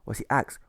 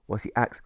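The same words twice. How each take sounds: The two takes are said the same way.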